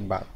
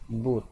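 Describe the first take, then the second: First: The vowel is a short uh sound. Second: The vowel is a long oo sound. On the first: The speaker calls it right. "tetapi but" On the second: The speaker calls it wrong. "don't read it boot"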